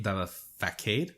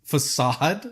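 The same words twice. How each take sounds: First: Facade said as "fa-KADE" with a hard k sound; mispronounced facade. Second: Facade said as "fuh-SAHD" with an s sound and a rising question; corrected facade. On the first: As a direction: say facade wrongly as "fa-kade", unsure and questioning. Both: Real, not acted.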